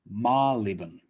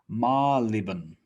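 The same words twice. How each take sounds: The two takes are said the same way.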